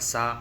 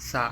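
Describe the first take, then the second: First: The first consonant is an ordinary s sound. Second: The first consonant is a soft th sound. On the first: "நார்மலாக சா அப்படின்னு சொல்கிறதுக்கும்" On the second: "நாக்கை அந்த பல்லோடைய மேற்பல்லின் நுனியில் வச்சு சா"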